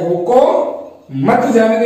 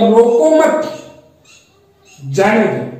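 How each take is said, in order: First: There is a pause after 'roko'. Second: There is a pause after 'mat'.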